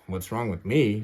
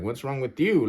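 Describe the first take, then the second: First: Indignant echo, "me" stressed at the end. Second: Indignant comeback, "you" stressed at the end. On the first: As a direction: retort leaning on "me". Throws her question back. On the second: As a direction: retort leaning on "you". Turns the question on her. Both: Retold or imitated.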